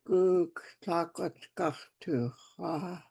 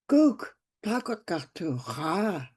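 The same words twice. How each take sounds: First: It is said flatly, without excitement. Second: It is said with excitement and happiness. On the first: The speaker calls it wrong. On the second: The speaker calls it right.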